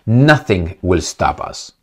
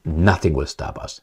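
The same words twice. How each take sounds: First: Slow, heavy reading of "Nothing will stop us"; "Nothing" stressed, slow menace; slow quoted threat. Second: Quiet repeat. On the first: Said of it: "then he said". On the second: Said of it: "That means". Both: Retold or imitated.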